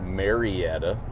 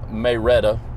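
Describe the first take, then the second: First: It has the standard non-local pronunciation. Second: It has the local Georgia pronunciation. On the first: This is how outsiders read the name. "If you are not from Georgia and you look at it, it's pronounced Marietta" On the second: This is how locals say the name. "That's how you say it in Georgia"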